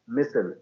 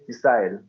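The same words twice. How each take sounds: First: It is said with an American pronunciation. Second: It is said with a British-style pronunciation. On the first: "But they say missile" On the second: "and we say missile"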